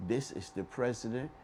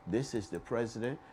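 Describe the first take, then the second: No difference in how they are said.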